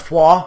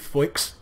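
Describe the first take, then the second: First: The name is said differently from its spelling. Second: The name is said letter by letter as spelled. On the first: The speaker calls it right. "I believe I'm pronouncing that correctly" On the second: The speaker calls it wrong. "as it's spelt, but obviously not pronounced Foix"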